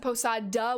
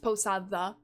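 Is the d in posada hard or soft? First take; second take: hard; soft. First: The d sounds hard, like an English d. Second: The d sounds soft, like th in the. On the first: The speaker calls it wrong. "If you pronounce it posada with a hard D, that is incorrect" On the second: The speaker calls it right. "It's posada"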